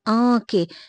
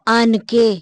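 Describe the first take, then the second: First: The vowel is only nasalized, no full n. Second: A full n consonant is pronounced. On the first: The speaker calls it right. "ये आँखें हैं" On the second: The speaker calls it wrong. "हम इसको आन के नहीं बोलते"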